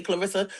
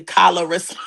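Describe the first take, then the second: First: Said in the usual way. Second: "Calarissa" with an open 'kah' added at the front; extra-syllable pronunciation. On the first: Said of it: "They don't know how to say Clarissa". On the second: Shown as a demonstration. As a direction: split the opening cluster of "Calarissa" into kah-la. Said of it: "so they say Calarissa".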